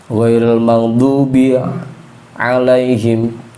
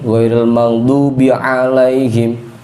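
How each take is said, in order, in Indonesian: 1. Frasa itu dipecah dengan jeda. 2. Frasa itu tersambung dengan lancar tanpa jeda.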